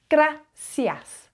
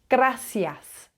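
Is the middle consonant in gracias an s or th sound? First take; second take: s; s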